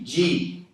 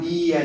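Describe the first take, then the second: First: The d is an affricate with a hiss. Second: The d is a plain dry stop. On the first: The speaker calls it right. "é ti, di" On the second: The speaker calls it wrong. "Não é algo dia"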